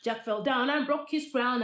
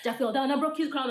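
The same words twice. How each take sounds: First: It is said fast. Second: It is said very fast.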